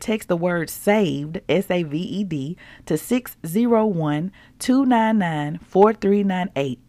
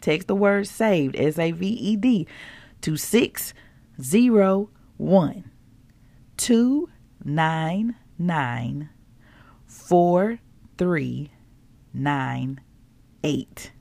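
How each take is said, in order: First: It is read at normal speed. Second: It is read slowly.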